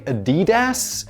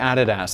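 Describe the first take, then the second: First: It is pronounced the American way. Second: It is pronounced the British way. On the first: "I believe Americans say Adidas" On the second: "we say Adidas"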